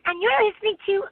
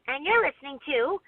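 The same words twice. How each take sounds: First: It is said in Tommy Pickles's voice. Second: It is said in Buttercup's voice.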